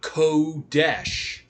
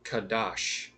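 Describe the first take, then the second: First: The vowels sound like 'o' then 'e'. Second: Both vowels sound like 'a'. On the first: The speaker calls it wrong. "not Kodesh" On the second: The speaker calls it right. "not Kodesh"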